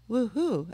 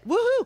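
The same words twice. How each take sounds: First: It is said very quietly and flatly. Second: It is said loudly and with energy.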